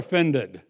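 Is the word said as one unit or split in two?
one unit. The word is said smoothly as one unit.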